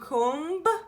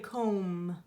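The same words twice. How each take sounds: First: A b sound is heard at the end. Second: No b sound is heard at the end. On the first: The speaker calls it wrong. "Do you hear k, o, m, b? Do you comb?" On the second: The speaker calls it right. "Or is it just usually comb?"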